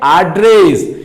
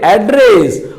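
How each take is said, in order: First: एड्रेस with open a vowel, said slowly; American एड्रेस, open a vowel; American pronunciation. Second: एड्रेस with front ɛ vowel, British style; British pronunciation. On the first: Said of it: "American English". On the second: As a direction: say एड्रेस with short e as in bed. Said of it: "British English में एड्रेस". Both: Shown as a demonstration.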